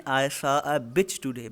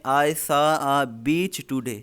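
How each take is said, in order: First: "bitch" said with a short clipped i vowel. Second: "beach" said slowly with a long ee vowel. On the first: Teacher warning students of the wrong vowel, slow and deliberate. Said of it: "मैंने आज एक कुत्ता देखा". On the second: Teacher showing students the correct "beach", slow and careful. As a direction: stretch the ee in "beach" so it means seashore. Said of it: "इसका मतलब है मैंने आज एक साहिल समंदर देखा". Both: Shown as a demonstration.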